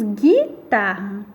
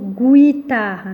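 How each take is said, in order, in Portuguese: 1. Não se ouve um som de U depois do G. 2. Ouve-se um som de U depois do G. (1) "nós falamos guitarra" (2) "nós não falamos o guitarra"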